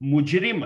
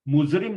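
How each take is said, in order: First: The consonant after mu is a j sound. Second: The consonant after mu is a z sound. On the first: The speaker calls it right. "मुजरिम है" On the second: The speaker calls it wrong. "मुजरिम नहीं होता है"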